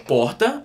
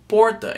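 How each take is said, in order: First: "porta" with the r breathed like an h, pohta; Ceará pronunciation. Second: "porta" slowly, with an English-style r, POR-ta; "porta" with a strong r, drawn out; Londrina pronunciation. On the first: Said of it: "instead of saying porta". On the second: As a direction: say "porta" the Londrina way, r clearly sounded. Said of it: "I started saying porta". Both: Shown as a demonstration.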